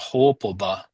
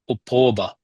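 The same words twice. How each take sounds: First: The stress is on the syllable ho. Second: The stress is on the syllable po. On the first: The speaker calls it right. "It shifts the emphasis to whole. So hopoba" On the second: The speaker calls it wrong. "not hopoba"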